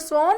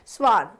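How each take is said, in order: First: The vowel is rounded, as in British English. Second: The vowel is open, as in North American English.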